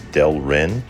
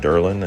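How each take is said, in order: First: The L sound comes before the R sound. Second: The R sound comes before the L sound. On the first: The speaker calls it right. "It's Delrin" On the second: The speaker calls it wrong. "I've been pronounced that incorrectly. I was calling it Derlin"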